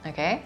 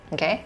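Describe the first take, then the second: Both takes have the same delivery.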